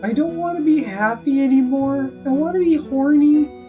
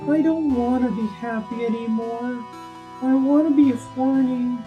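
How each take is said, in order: First: It is said without a melancholy tone. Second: It is said in a melancholy, wistful tone. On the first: The speaker calls it wrong. "No, you have to say it like in a melancholy way" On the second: The speaker calls it right. "like in a melancholy way, like you're staring out at the sunset"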